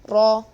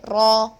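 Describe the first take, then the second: Both takes have the same delivery.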